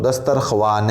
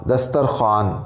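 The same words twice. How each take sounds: First: दस्तरख्वान wrongly said dastarkhwan, waw sounded; दस्तरख्वान with the w pronounced after kh, the wrong way; wrong pronunciation. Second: दस्तरख्वान with silent waw, said dastarkhan; दस्तरख्वान as dastarkhan, no w sound after kh; correct pronunciation. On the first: (दस्तरख्वान को गलत तरीके से, वाव बोलकर) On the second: (दस्तरख्वान को दस्तरखान बोलें, वाव ख़ामोश) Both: Shown as a demonstration. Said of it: "इस तरीके से पढ़ेंगे तो ये गलत हो जाएगा".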